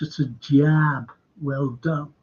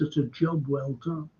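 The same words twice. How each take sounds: First: It is said with an American accent. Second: It is said with an English accent. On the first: The speaker's real accent slips through. "They come out and say" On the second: This is the accent being attempted. "oh yes, it's a job well done"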